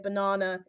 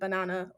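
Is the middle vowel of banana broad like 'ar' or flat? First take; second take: broad; flat. First: The middle vowel is a long broad 'ar' sound. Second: The middle vowel is a short flat 'a' sound. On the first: This is the speaker's own British way. "the way I pronounce my A's is like an A R" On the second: This is the other accent's way. "instead of banana or whatever it is"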